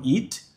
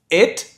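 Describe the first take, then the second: First: "it" said as "eet"; tense ee in "it"; soft "it" with Portuguese i; wrong long-i version. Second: "It" said as "et"; eh-like vowel in "It"; short-i pronunciation. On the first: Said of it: "e não". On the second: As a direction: relax the i of "It" toward ê. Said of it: "o I com som de E". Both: Shown as a demonstration.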